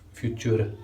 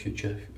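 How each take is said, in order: First: It is said with a German pronunciation. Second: It is said like the English word future. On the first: The speaker calls it right. "it's German pronunciation" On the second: The speaker calls it wrong. "not future"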